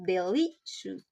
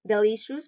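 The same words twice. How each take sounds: First: "delicious" drawn out, stress on LI; demonstrated word stress. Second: Said in the usual way. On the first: Shown as a demonstration. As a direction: say "delicious" deliberately, stressing the middle syllable. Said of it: "pronounced delicious".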